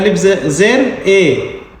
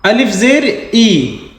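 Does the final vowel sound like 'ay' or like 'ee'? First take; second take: ay; ee. First: The final vowel is a mid 'ay' sound. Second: The final vowel is a long, high 'ee' sound. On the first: The speaker calls it wrong. "मजहूल आवाज" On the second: The speaker calls it right. "इसको कहते हैं मारूफ आवाज"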